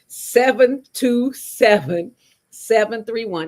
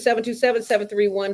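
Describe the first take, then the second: First: The number is said slowly. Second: The number is said very fast.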